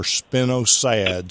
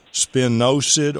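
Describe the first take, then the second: First: Spinosad said spin-oh-SAD; alternative pronunciation. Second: Spinosad said spih-NO-sid; usual pronunciation. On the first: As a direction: lean on a drawn-out SAD ending in spinosad. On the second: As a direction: stress the NO in spinosad, short last syllable. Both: Shown as a demonstration. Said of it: "some people pronounce it".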